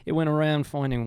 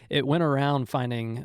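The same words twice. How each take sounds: First: It is said in an imitated Australian accent. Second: It is said in a plain American accent.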